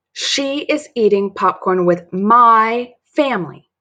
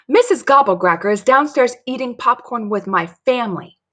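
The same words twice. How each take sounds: First: Slow, loud, with "my" drawn out; emphatic, stress on MY. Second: Higher, urgent announcement; alarmed report. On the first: Dory makes Mary understand, indignant stress on "my". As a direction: indignantly lean hard on "my". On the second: Dory runs to tell Mary the news, alarmed. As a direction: report shocking news breathlessly fast. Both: Acted.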